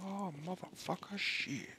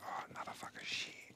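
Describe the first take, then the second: First: It is said loudly, with a raised voice. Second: It is said quietly, in a low voice. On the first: The speaker calls it right. "Or I should be like" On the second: The speaker calls it wrong. "I forget to raise my voice back up"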